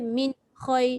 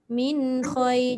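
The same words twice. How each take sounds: First: The nasal n is cut off and sounds hard. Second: The nasal n flows smoothly into the next word. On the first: The speaker calls it wrong. "dia jadi keras" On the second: The speaker calls it right. "jangan dia terputus je"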